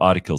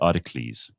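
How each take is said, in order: First: The word is said in its usual way. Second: The word is said like a Greek hero's name. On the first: "instead of" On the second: "words that should be pronounced like ancient Greek heroes"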